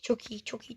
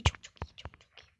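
First: Soft, half-voiced murmur to himself; quiet praise. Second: Breathy whisper with no voice; whispered praise. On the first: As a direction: mumble the praise under his breath. (kendi kendine alçak sesle mırıldanma) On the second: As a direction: whisper it to yourself while concentrating. (fısıltıyla övgü) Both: Real, not acted. Quiet self-talk while playing.

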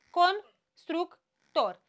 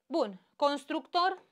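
First: Constructor said slowly, syllable by syllable, cons-truc-tor; split into syllables. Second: Said in the usual way. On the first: Shown as a demonstration. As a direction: spell out constructor in slow separate syllables. (rostește constructor rar, pe silabe) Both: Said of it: "Patru consoane între două vocale".

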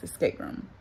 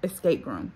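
First: Unvoiced whisper to herself. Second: Said in the usual way. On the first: Real, not acted. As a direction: breathe the title as a whisper. Repeating the title to herself.

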